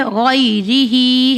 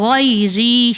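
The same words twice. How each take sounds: First: "غیری ہی" slowly, with the final hi sounded; full written form. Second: "غیری" slow, ending on ri with a breath of h; silent final ha. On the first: Teacher showing the word before stopping, hi voiced. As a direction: sound the long "ہی" after "غیری". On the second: Teacher showing the pausing form, ha silenced. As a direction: stop "غیری" without voicing hi. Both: Shown as a demonstration. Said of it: "ہا کو silent کیا".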